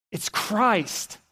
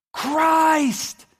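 First: Said in the usual way. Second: High, loud, drawn-out yell. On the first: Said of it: "who turns to him and says". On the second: Acted. Peter realizing it is Christ, yelling. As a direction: cry it out at full voice. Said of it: "He yells".

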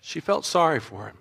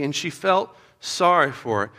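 First: Hushed and heartfelt, dropped soft; soft emphasis. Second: Said in the usual way. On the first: Shown as a demonstration. Preacher answering kids' question, softly and with feeling. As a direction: let it land quietly, with feeling. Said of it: "tell me, what happened to Pharaoh's daughter's heart". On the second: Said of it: "tell me, what happened".

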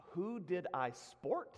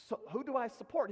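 First: SPORT said slowly as one syllable; baffled echo. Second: SUPPORT said in full, two syllables; dawning understanding. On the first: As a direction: slowly sound out "sport", puzzled. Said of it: "Is that like a Scottish phrase?". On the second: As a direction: raise the pitch and sound out "support" clearly. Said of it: "Who'd you support?". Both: Retold or imitated.

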